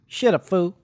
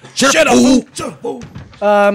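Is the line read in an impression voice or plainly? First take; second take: plain; impression. First: It is read in a plain, ordinary voice. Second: It is read in a put-on impression voice.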